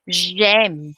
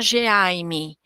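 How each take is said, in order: First: The sounds are linked into one syllable. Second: The sounds are split apart with a gap. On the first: The speaker calls it right. "eu tenho que falar tudo junto" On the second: The speaker calls it wrong. "Eu não posso falar G e depois M"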